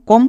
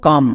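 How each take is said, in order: First: কম blended from ko plus om; wrong rule-based pronunciation. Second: কাম as one syllable, no 'o' sound; correct sight-word pronunciation. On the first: Teacher blends it by rule before rejecting it, কম with 'o'. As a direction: say কম with a rounded 'o', like 'kom'. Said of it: "এখানেও আমাদের ওম উচ্চারণ হবে না". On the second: Teacher corrects the reading for students, কাম with open 'a'. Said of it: "এর জন্য আমরা উচ্চারণ করব কাম". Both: Shown as a demonstration.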